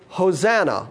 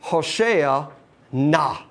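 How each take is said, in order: First: The stress is on the middle syllable. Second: The stress is on the last syllable. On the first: The speaker calls it wrong. "with the accent on the middle syllable. That's the wrong pronunciation" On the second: The speaker calls it right. "The accent is on the last syllable"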